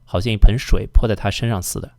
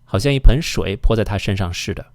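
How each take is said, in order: First: The syllable before 'de' begins with 's'. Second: The syllable before 'de' begins with 'sh'. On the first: "often people pronounce this as 似的 as well" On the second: "with the exception of 是的"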